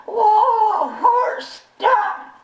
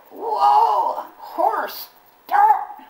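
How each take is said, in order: First: High, loud yell breaking into a laugh; laughing panicked yell. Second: High, loud yell at a runaway horse; panicked yell. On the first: [name] yelling at the horse again, laughing. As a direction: shout whoa at the horse, laughing through it. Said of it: "I yelled". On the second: [name] yelling at a runaway horse, high and loud. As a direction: holler whoa at the bolting horse. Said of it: "and I yelled". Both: Retold or imitated.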